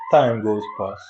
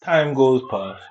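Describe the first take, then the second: First: Said in the usual way. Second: Slow drawn-out Time goes past; slow dramatic. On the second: Shown as a demonstration. Narrating passing time, slow and weighty. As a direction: let Time goes past hang slowly.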